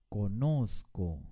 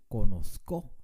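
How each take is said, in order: First: The stress is on the middle syllable. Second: The stress is not on the middle syllable. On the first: The speaker calls it right. "con mucho énfasis en la penúltima sílaba" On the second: The speaker calls it wrong. "ni tampoco conozco"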